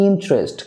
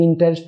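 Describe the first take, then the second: First: "ইন্টারেস্ট" squeezed to in-trest; two-syllable interest. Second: "ইন্টারেস্ট" as in-ta-rest, middle vowel sounded; three-syllable interest. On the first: Teacher gives correction, "ইন্টারেস্ট" as in-trest. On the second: Teacher shows the form to avoid, "ইন্টারেস্ট" as in-ta-rest. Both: Shown as a demonstration. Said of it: "না হয়ে হবে".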